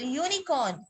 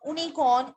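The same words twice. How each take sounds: First: यूनिकॉर्न as "yoonicorn"; correct y-sound pronunciation. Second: यूनिकॉर्न as "oonicorn"; mispronounced without y. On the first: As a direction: open यूनिकॉर्न with a y glide. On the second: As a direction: start यूनिकॉर्न on a bare "oo". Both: Shown as a demonstration. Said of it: "इसकी correct pronunciation ही".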